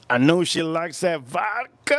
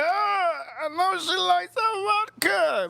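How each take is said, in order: First: Said in the usual way. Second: High, slow falsetto fake crying; mock wailing. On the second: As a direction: whine it out like a hammed-up sob. Mock wailing repeat of line.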